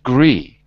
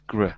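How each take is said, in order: First: The syllable has a full, long vowel. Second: The syllable has a short, reduced vowel. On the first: The speaker calls it wrong. "Not gree" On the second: The speaker calls it right. "but gr, because it's it's not stress"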